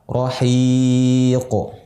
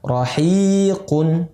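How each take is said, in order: First: The word ends without the nasal 'n' sound. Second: The word ends with the nasal 'un' sound. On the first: The reader stops at this word. "Pisah, diwakaf" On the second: The reading continues on without stopping.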